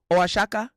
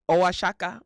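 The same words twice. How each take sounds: The two takes are said the same way.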